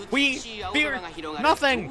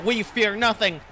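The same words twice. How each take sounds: First: High, rising pep-talk cry; excited battle cry. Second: Said in the usual way. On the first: Real, not acted. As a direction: pump yourself up, voice lifted high. Psyching herself up, repeats higher.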